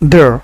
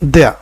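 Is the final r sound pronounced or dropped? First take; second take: pronounced; dropped. First: The word ends with an audible r sound. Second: The word ends on a vowel without an r. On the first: "American ইংলিশে আপনি আর দিয়ে উচ্চারণ করতে পারবেন" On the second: "British ইংলিশে মূলত আর বাদ দিয়ে উচ্চারণ করতে হয়"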